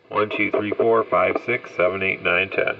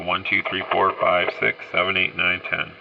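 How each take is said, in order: First: The voice sounds dull with strong bass. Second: The voice sounds bright with strong treble. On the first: "the tone all the way down. This is the bass" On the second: "the tone all the way up. This is the uh, treble part"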